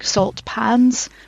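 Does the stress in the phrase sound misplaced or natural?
misplaced. The stress falls on an unexpected part. A synthetic voice produced it. The speaker calls it wrong. "emphasis on the wrong syllable"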